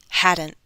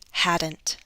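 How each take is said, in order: First: The T is a glottal stop. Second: The T is released as a full T. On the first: "Glottal stop" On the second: "listen to the true T"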